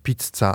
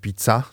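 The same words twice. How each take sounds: First: The middle c sound is long and doubled. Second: The middle c sound is short and single. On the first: The speaker calls it right. "bo jest pizza" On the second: The speaker calls it wrong. "a nie pizza"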